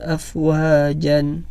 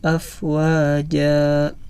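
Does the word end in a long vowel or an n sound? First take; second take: n sound; long vowel. First: The word ends with a short a and n. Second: The word ends with a lengthened a vowel. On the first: The reading continues without stopping. The speaker calls it wrong. "apabila tidak diberhentikan maka dibaca afwajan" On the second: The reading stops at the end of the verse. The speaker calls it right. "dua harokat dan tidak dibaca an, tetapi a"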